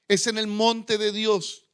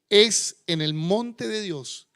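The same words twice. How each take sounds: First: It is spoken at a normal, quicker pace. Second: It is spoken at a slower, deliberate pace.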